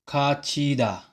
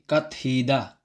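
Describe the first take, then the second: First: The middle consonant is a ch sound. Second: The middle consonant is a t sound. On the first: The speaker calls it right. "ang sound niya ay C H" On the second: The speaker calls it wrong. "hindi kathida"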